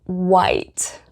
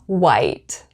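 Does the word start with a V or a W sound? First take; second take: W sound; W sound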